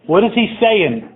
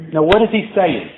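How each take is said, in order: First: IS raised and slowed; stress on IS. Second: Said in the usual way. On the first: Shown as a demonstration. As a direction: lean hard on "is" in "What is he saying?".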